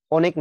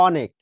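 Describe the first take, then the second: First: অনেক mispronounced as "OH-nek"; wrong closed ও. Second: অনেক said as "AW-nek"; correct open অ. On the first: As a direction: round the first vowel of অনেক to "oh". (অনেক, ভুল করে ও দিয়ে শুরু) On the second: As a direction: open the first vowel of অনেক to "aw". (অনেক, স্পষ্ট খোলা অ দিয়ে) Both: Shown as a demonstration. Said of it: "না কিন্তু এটা অনেক".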